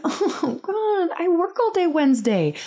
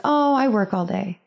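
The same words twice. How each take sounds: First: High-pitched exasperated inner whine; acted-out dread, pitched well up; inner groan. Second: Said in the usual way. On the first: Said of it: "So in my head, I'm just like". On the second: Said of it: "And so I said, like".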